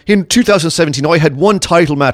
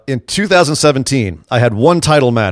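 First: It is spoken in an Irish accent. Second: It is spoken in the speaker's ordinary accent.

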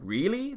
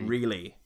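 First: It rises in disbelieving mock surprise. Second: It falls flatly like a plain statement.

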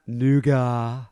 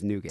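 First: The final T is silent. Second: The final T is clearly sounded. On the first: The speaker calls it wrong. "It's not a silent T. It's not nougat" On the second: The speaker calls it right. "It's nougat"

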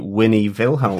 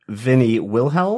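First: The name is said with a German accent. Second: The name is said with an English accent. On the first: "as German speakers speaking English, we would say" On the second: "as English speakers, we would say"

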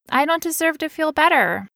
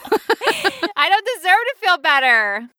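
First: The sentence flows smoothly and evenly. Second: The sentence is delivered less smoothly, with effort. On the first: "Do you see how smoothly I said that belief?" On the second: "That's more like how it went"

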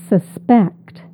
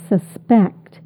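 The two takes are said the same way.

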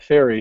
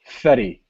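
First: The name sounds like the English word 'fairy'. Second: The name sounds like 'fetty', with a short vowel. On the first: The speaker calls it wrong. "he also doesn't pronounce it fairy" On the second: The speaker calls it right. "He pronounces it fetty"

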